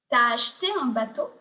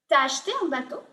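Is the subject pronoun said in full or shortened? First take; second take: shortened; shortened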